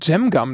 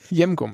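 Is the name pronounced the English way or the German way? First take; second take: English; German. First: The name is pronounced with English sounds. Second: The name is pronounced with German sounds. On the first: The speaker calls it wrong. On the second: The speaker calls it right.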